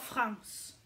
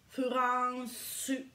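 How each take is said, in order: First: The word has one syllable, ending in a consonant. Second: The word has three syllables, ending in a vowel. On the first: Nobody here will understand it. The speaker calls it wrong. "Dites pas France" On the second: People here will understand it. The speaker calls it right. "c'est très important de dire Furançu. Avec un U à la fin"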